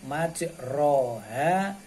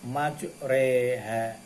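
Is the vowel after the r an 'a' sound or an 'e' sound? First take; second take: a sound; e sound. First: The vowel after r is an open a sound. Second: The vowel after r is an e sound. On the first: It follows the written letters. The speaker calls it wrong. "Tulisannya majroha" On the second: It is the required recitation. The speaker calls it right. "tapi harus dibaca majreha"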